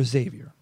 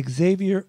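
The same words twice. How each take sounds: First: Xavier said "ZAY-vyer"; Xavier with Z start. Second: Xavier said "ig-ZAY-vee-er"; Xavier with ig-ZAY start. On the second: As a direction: put an "ig" before the Z in Xavier. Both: Shown as a demonstration. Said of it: "Is it Xavier or Xavier".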